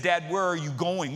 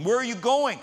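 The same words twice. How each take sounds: First: Said in the usual way. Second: Higher, louder repeated question; insistent child. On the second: Retold or imitated. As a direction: imitate a kid pressing Dad for an answer.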